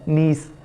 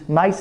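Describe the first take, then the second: First: The vowel sounds like 'ee', as in see. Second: The vowel sounds like 'eye', as in nice. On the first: The speaker calls it right. "ये सही और correct word है नीस" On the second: The speaker calls it wrong. "नाइस नहीं है"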